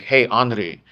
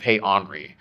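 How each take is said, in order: First: The R is rolled, Japanese style. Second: The R is plain American, not rolled.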